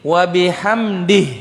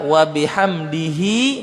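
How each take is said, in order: First: The final h is said with no vowel. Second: A final i vowel follows the h. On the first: The reciter stops here. "Jadi kalau berhenti, ... Jadi mati ha, ya sukun ha" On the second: The reciter carries on without stopping. "Tapi kalau mau dibaca, ... juga boleh"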